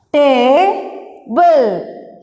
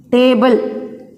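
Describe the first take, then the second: First: "Table" as a long ta, pause, then ble; split into syllables. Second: Said in the usual way. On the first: Shown as a demonstration. Teacher dividing the word for the class, "Table" split ta-ble. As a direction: stretch and separate the two beats of "Table". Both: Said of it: "we can divide this word".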